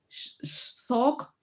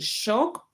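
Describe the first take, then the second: First: The word begins with a plain s sound. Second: The word begins with an sh sound. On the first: "you see that is sound like a C" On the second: "instead of saying shock"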